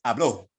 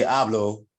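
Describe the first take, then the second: First: Hablo stressed on the last syllable, ha-BLO; stress on final O. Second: Hablo stressed on HA, the first syllable. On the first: Teacher showing what the accent mark changes, hablo stressed on the final o. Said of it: "put an accent mark on the O". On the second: Teacher contrasting verb forms for the class, hablo stressed on the first syllable. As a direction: say hablo with the weight on the opening "ha". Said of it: "we put an accent mark on the O". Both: Shown as a demonstration.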